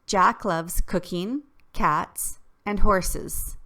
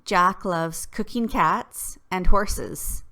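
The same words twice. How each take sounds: First: Three separate items, a break between each; list with pauses. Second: "cooking cats" run together, slowly; no pauses, slow. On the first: Teacher reading a comma list with clear pauses. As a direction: pause after cooking and after cats. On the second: Teacher showing the list without commas, run together slowly. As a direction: read it straight through with no breaks. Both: Shown as a demonstration. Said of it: "Jack likes these three things".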